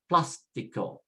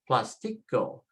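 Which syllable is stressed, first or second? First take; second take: first; second. First: The stress is on the first syllable. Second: The stress is on the second syllable. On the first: The speaker calls it right. "change it by following the accent" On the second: The speaker calls it wrong. "we should be pronouncing it as plastico, plastico, next to the last"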